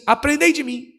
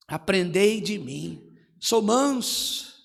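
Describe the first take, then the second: First: Said in the usual way. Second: Gentle. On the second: Shown as a demonstration.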